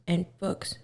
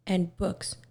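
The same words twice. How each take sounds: The two takes are said the same way.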